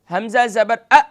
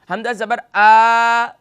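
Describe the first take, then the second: First: The final vowel is cut off abruptly. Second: The final vowel is drawn out long. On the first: "इसे जल्दी से यानी झटका भी नहीं देना" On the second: "अब इसे आ भी नहीं करना, खींचना भी नहीं है"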